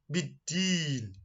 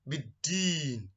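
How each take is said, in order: No difference in how they are said.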